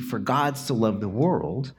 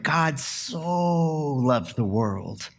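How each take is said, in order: First: Said in the usual way. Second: "so" drawn out slowly, as in "so very much"; slow, "so" meaning so very much; stress on so. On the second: Shown as a demonstration. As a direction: lean on "so" like loving a teddy bear. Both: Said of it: "a lot of people hear that as".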